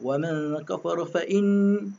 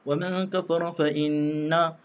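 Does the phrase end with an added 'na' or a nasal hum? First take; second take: nasal hum; added na. First: The phrase ends on a held nasal hum. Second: The phrase ends by pronouncing an extra 'na' syllable. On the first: The speaker calls it right. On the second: The speaker calls it wrong. "Jangan sambung na pula... Dia akan jadi masalah"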